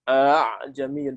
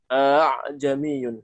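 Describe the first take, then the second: First: The second glottal stop is softened toward a vowel. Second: The second glottal stop is softened toward a vowel.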